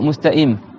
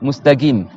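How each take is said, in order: First: The q is replaced by a glottal stop. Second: The q is replaced by a g sound. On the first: The speaker calls it wrong. "les Libanais et les Syriens" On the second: The speaker calls it right. "ils font le qaf ga"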